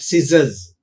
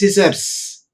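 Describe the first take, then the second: First: The final sound is a z sound. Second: The final sound is an s sound. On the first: The speaker calls it right. "pronounced as z" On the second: The speaker calls it wrong. "not pronounced as"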